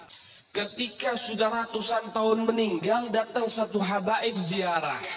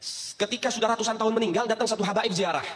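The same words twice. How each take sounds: First: Slow it right down for emphasis; slow, drawn-out retelling. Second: Said in the usual way. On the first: Shown as a demonstration. Preacher repeats the story line slowly to the congregation. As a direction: stretch every word out slowly. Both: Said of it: "repeats the line slowly".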